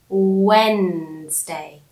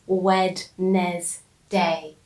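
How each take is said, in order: First: It has two syllables with a silent D. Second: It has three syllables with a sounded D. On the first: The speaker calls it right. "We say Wednesday. You don't hear the D" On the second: The speaker calls it wrong. "we don't say Wed-nes-day"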